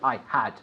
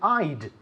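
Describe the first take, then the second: First: Both words are said fully and separately. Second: The words are squeezed into one short syllable. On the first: The speaker calls it wrong. "We don't say I had" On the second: The speaker calls it right. "With a contraction, ... We said I'd"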